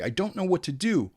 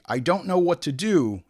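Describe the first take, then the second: First: "I don't know what to do" said higher, acted out; mock actor take. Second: Said in the usual way. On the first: Shown as a demonstration. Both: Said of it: "say it again twenty-five times".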